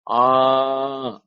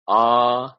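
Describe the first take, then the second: First: The vowel is drawn out very long. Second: The vowel is held about twice as long. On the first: "Pluta means more than th- more than three" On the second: "Dirgha means uh, two measures"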